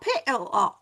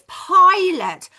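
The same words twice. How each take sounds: First: The second vowel is a full O sound. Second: The second vowel is a weak uh sound. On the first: The speaker calls it wrong. "not the O sound" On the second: The speaker calls it right. "the schwa sound uh"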